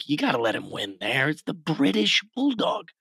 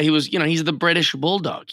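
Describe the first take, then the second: First: A light mock British accent; playful half-hearted British accent. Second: Said in the usual way. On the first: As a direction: toss off the line in a hint of British. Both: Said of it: "Do you have a good British accent you can give us?".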